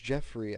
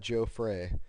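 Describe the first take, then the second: First: The first syllable sounds like 'jeff'. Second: The first syllable sounds like 'joe'. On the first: The speaker calls it right. "I think it's Jeffrey" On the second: The speaker calls it wrong. "I know it's not Joe Frey"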